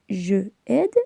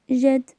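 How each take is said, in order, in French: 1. La voyelle de je est gardée devant aide. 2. La voyelle de je est supprimée devant aide. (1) "On ne dit pas je aide" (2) "mais j'aide"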